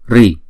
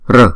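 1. Âm r được theo sau bởi âm i. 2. Âm r không có nguyên âm nào theo sau. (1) "Miền Bắc Ấn Độ thì đọc là Ri" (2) "một số miền khác đọc là R"

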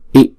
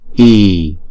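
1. Nguyên âm ngắn, một nhịp. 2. Nguyên âm dài, hai nhịp. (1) "chữ Y không có dấu gạch trên đầu, chúng ta đọc là I" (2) "chữ Y có dấu gạch ngang trên đầu, chúng ta đọc là I"

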